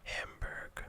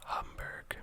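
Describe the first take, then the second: First: Hamburg said as HAM-burg, with a flat a like ham; Hamburg pronunciation. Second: Hamburg said as HUM-burg, with a short uh like hum; Hamburg pronunciation. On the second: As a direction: Hamburg with an uh vowel, HUM-burg, closer to German. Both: Shown as a demonstration. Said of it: "I'm not gonna try to pronounce it".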